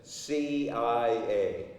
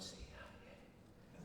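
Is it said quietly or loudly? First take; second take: loudly; quietly. First: It is said loudly and clearly. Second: It is said quietly, almost mumbled.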